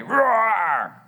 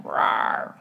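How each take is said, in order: First: Big snarling bear roar, imitated. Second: Tiny breathless little roar; a weak boy's roar back at the bear; puny roar. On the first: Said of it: "confronted by a snarling bear". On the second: Retold or imitated. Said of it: "this very puny".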